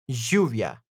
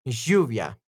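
The two takes are said the same way.

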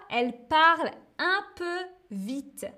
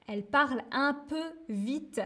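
First: Said in the usual way. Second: A bit fast. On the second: Shown as a demonstration. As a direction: rattle it off like she does. (dit un peu vite, à la manière de Virginie)

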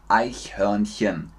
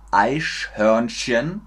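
First: "Eichhörnchen" with soft palatal ch, not sh; correct ich-sound. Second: Slow "Eichhörnchen" with sh in both ch spots; mispronunciation demo. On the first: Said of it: "Es ist Nummer zwei". ("Eichhörnchen" deutlich mit weichem ch) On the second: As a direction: stretch "Eichhörnchen" into "Eisch-hörn-schen". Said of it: "Könnt ihr den Unterschied hören?". ("Eichhörnchen" langsam, falsch mit sch) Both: Shown as a demonstration.

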